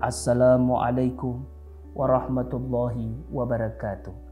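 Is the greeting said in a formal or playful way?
formal. It is said in a stiff, formal way.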